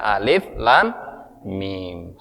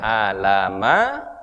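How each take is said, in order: First: Each letter is said by its full name. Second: The letters are run together as one short word. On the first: The speaker calls it right. "tetapi dibaca alif lam mim sesuai dengan kaidah tajwidnya" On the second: The speaker calls it wrong. "tidak dibaca alama"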